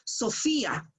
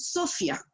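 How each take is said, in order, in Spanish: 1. El acento cae en la sílaba del medio. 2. El acento cae en una sílaba diferente. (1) "Yo digo Sofía ... Si está marcado con tilde" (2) "no voy a decir Sofía"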